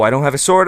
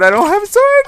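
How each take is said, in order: First: Said in the usual way. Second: Very high squeaky panicked wail; mock panic. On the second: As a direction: squeal it like a terrified kid. Zombie appears, no sword.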